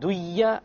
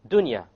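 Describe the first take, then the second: First: The n sound is merged into the y. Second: The n sound is pronounced clearly before y. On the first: The speaker calls it wrong. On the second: The speaker calls it right.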